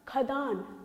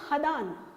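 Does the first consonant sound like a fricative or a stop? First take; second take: stop; fricative. First: It begins with a plain aspirated kh stop. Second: It begins with a throaty fricative kh. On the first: The speaker calls it right. "सही ये है हमारा शुद्ध उच्चारण" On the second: The speaker calls it wrong. "ये नुक्ता लगने से हम इसको बोलेंगे"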